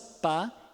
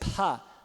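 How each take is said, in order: First: The p is released without a puff of air. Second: The p is released with a puff of air. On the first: "Pode ser sem aspiração" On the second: "o P pode ser aspirado"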